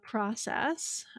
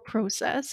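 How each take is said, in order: First: It is said in a non-Canadian way. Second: It is said in a Canadian way.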